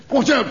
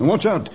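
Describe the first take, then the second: First: High, sudden alarm; urgent warning cry. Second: Brisk, mild warning; cautioning. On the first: Man warns Tarzan of a flying dart, urgently. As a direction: cry out to save someone. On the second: Man warns of spider beside the dart, cautioning. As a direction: alert them without crying out. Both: Acted.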